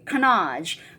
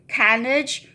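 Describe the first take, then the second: First: The word is said with a French pronunciation. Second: The word is said with an anglicized pronunciation. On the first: The speaker calls it right. "Turns out to be canage" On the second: The speaker calls it wrong. "I used to say canage"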